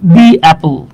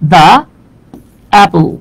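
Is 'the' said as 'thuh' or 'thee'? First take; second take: thee; thuh. First: 'The' is said with a long 'ee' vowel. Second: 'The' is said with a short 'uh' vowel.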